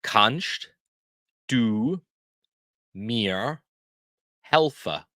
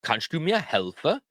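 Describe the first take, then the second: First: One word at a time, long pauses between; spaced out slowly for learners to repeat; word-by-word teaching demo. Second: Words joined into one question; whole-phrase demo. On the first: Teacher shows learners how to ask for help, word by word. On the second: Teacher shows learners the whole help question, joined up. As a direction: run it together smoothly, rising at the end. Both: Shown as a demonstration. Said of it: "How we say that".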